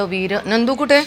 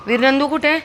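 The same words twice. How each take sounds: First: High, eager question; excited pet question. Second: कुठे pitched even higher and louder; more excited pet question. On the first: Owner asking her dog where his friend is, excited. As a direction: ask him with excitement. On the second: Owner repeating her question to the dog, even more excited. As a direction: push the excitement further. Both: Real, not acted.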